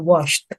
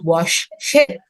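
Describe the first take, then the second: First: The ending is a single "t" sound. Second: The ending is an extra "id" syllable. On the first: The speaker calls it right. "Tapi dia akan terbaca washed. Pakai T" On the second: The speaker calls it wrong. "Dia nggak baca wash sheet"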